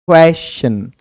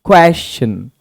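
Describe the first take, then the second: The two takes are said the same way.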